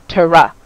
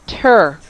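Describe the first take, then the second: First: The T and R are separated by a vowel. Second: The T and R glide smoothly together. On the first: The speaker calls it wrong. "Many of you guys pronounce this as tura, ... It is not. ... when I pronounce the T R, I'm stopping the sound" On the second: The speaker calls it right. "glide together and say quickly ... in a smooth manner"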